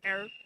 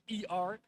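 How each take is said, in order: First: It is said as one syllable, 'air'. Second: It is spelled out as two letters. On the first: The speaker calls it right. "and not as air" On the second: The speaker calls it wrong. "English speaking people would pronounce it as E R"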